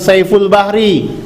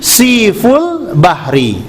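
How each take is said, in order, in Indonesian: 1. Suku kata pertama diucapkan sebagai 'sai'. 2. Suku kata pertama diucapkan sebagai 'si'. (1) "Ini keliru, bukan Saiful Bahri" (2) "tapi Siful Bahri"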